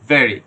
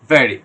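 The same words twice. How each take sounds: The two takes are said the same way.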